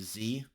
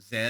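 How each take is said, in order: First: The letter is said the American way. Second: The letter is said the non-American way. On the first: "but I know Americans say Z" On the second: "I'm going to say uh"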